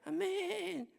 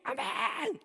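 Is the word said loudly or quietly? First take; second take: quietly; loudly. First: The word is said softly, without force. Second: The word is shouted very loudly. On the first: The person rarely experiences the Spirit. The speaker calls it wrong. "근데 아멘 이러면 그 그 이 성령 체험을 못 받더라" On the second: The person will receive grace that night. The speaker calls it right. "막 죽어라고 막 크게 아멘 이런 애들"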